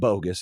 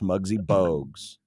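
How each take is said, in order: First: The name sounds like the word 'bogus'. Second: The name does not sound like 'bogus'. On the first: The speaker calls it wrong. "It's not bogus" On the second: The speaker calls it right. "it's Muggsy Bogues"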